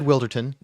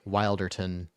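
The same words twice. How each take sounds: First: The first syllable sounds like 'will'. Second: The first syllable sounds like 'wild'. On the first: The speaker calls it right. "that's the official pronunciation" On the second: The speaker calls it wrong. "made me think wild"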